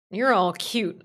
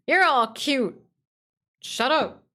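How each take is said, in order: First: Said in the usual way. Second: High, loud cutesy squeal; squeaky cute voice. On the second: Pretend. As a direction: squeak it like a toy.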